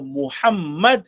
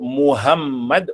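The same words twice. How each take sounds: First: The middle h is a deep, throaty h. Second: The middle h is a plain, light h. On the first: It is the Prophet's name. The speaker calls it right. "Tapi kalau Muhammad, itulah Nabi kita" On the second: It is not the Prophet's name. The speaker calls it wrong. "kalau kita sebut Muhammad, itu bukan Nabi kita"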